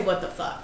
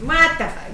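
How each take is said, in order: First: Low, soft Staten Island accent. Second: Wrong Gloucester accent. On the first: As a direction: show how it's really said, in the island accent. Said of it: "You say". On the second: Gloucester accent, the overdone take the friend corrects. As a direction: overplay the Gloucester accent on what. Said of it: "you don't say it like that". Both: Shown as a demonstration.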